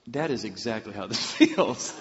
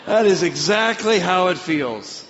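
First: Amused prayer breaking into laughter; laughing realization. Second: Loud, high, slow exclamation; emphatic realization. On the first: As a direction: say it through a laugh at usual pitch. Retold prayer while both are laughing. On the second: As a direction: cry it out slowly and emphatically to God. Repeats the realization with full force. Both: Retold or imitated.

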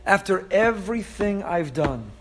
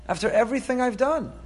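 First: Said in the usual way. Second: Higher, lifted repeat of "after everything I've done"; rising exasperation. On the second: Acted. God rebuking the people, pitched higher in exasperation. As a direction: push it up a notch in disbelief. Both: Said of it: "he says".

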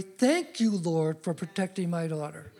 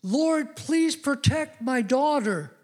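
First: Calm, trusting thanks that softens and fades; a father showing a trusting way to pray; thankful prayer. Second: High, slow, pleading prayer; a worried father pleading with God at one in the morning; anxious father's plea. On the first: Shown as a demonstration. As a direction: thank God as if it's already done. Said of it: "how you can pray differently". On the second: Retold or imitated. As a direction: beg God to keep her safe. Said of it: "I prayed this prayer as a father".

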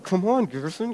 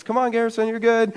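First: Hushed, higher mock pep talk; strained self-urging. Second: High-pitched, soft reassurance; sister encouraging. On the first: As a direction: urge yourself under your breath, straining. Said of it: "And I'm like". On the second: Retold or imitated. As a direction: imitate a sister's higher, softer coaxing. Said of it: "You know, my sister's".

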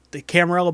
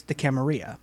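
First: Said in the usual way. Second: Camarilla said with a silent double L, "cama-REE-a"; affected foreign "Camarilla" ending in "-ee-a"; pretentious pronunciation. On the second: Shown as a demonstration. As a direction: say Camarilla Spanish-style, the L's as a y glide. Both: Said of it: "if you want to be pretentious".

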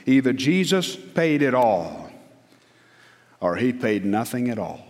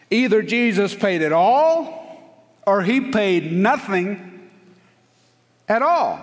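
First: Said in the usual way. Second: "Either Jesus paid it all, or he paid nothing at all" slow, higher and louder, "all" held long; emphatic repeat. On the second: Shown as a demonstration. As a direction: hammer it home slowly from the pulpit. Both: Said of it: "I want to tell you something".

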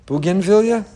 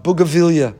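First: "Bougainvillea" said as "boo-gin-VIL-ya", questioningly; pronounced with N. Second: "bougainvillea" said as "booga-VIL-ya", no N; pronounced without N. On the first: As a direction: sound the N in "Bougainvillea". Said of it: "Is there an N?". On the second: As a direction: drop the N in "bougainvillea". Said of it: "Is that how you pronounce that?". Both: Real, not acted.

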